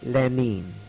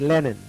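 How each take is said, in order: First: The name is said with a Russian pronunciation. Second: The name is said with an English pronunciation. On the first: "They say Lenin" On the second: "We say Lenin"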